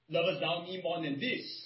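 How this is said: The question is asked in a rebuking tone. The asker is scolding the listener for failing. "This can be with the tone of rebuke"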